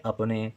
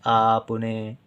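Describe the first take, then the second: First: "अपने" with a brief opening vowel; short a. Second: "आपने" with a drawn-out opening vowel; long aa. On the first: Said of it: "कम देर तक अपने". ("अपने" में अ कम देर तक) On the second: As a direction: hold the aa that begins "आपने". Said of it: "ज़्यादा देर तक आवाज़ निकालते हैं". ("आपने" में बड़ा आ लंबा करके) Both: Shown as a demonstration.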